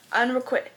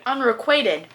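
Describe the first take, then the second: First: Unrequit clipped short, the ending dropped; fumbled word. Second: Unrequited said in full as un-re-KWAY-ted; correct pronunciation. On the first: Stumbling over a word she can't say in her trope video: unrequit, said unsure and clipped. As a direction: stumble on unrequit, cut off before the last syllable. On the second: Finally getting the trope name right for viewers: Unrequited said in full, clearly. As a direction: land Unrequited cleanly with the long KWAY. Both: Shown as a demonstration. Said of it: "I just didn't know how to say it".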